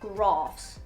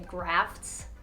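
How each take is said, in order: First: It is said in a non-American accent. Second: It is said in an American accent. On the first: The speaker calls it right. "but it's grafts" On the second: The speaker calls it wrong. "if I said it with my normal accent"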